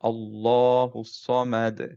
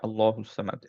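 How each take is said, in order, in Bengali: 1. দুই লামের পরের স্বরটি লম্বা। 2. দুই লামের পরের স্বরটি ছোট। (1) "মাদ তবিই দিয়ে পড়ব" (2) "এরকম না"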